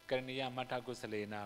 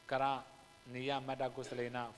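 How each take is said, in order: First: It flows as one phrase with no inner break. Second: A break falls inside the first word, after kara. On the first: "We mostly we chant" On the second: "you may punctuate wrongly"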